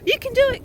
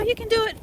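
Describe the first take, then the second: First: Very high, loud cheering at the dog. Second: Encouraging the dog. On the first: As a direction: cheer him over it at full voice. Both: Real, not acted. Cheering dog over obstacle.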